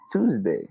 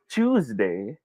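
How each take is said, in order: First: "Tuesday" opening on a clean t; tooz-day. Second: "Tuesday" opening on a ch sound; choose-day. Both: Shown as a demonstration. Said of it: "Is it Tuesday or Tuesday?".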